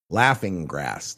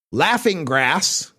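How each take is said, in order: First: Mock kiddie voice. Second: Said in the usual way. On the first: Shown as a demonstration. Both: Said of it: "for the younger kids".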